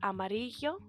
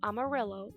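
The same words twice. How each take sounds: First: The double L is said as a Y sound. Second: The double L is said as an L sound. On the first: The speaker calls it right. "will be pronounced like a Y" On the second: The speaker calls it wrong. "it's not amarillo"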